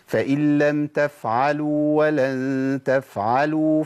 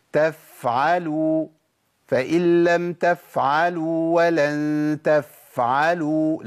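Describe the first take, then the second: First: تفعلوا with the fa held its natural time; correct f length. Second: تفعلوا with the fa stretched far too long; overlong f. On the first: Teacher shows the right timing for the f. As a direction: hold the fa in تفعلوا just briefly. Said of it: "شفت أنا وقفت قد إيه؟". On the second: Teacher mocks learners who overstretch the f. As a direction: drag out the f in تفعلوا. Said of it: "لا، ده كتير قوي". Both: Shown as a demonstration.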